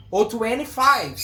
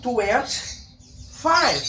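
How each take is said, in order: First: Twenty-five with the middle t dropped; informal take. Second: Twenty-five with the t clearly said, slowly; slow formal take. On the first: (twenty-five informal, sem o T) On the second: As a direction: spell out twenty-five carefully with the t. (twenty-five formal, devagar, com o T) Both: Shown as a demonstration. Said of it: "formal ou informal".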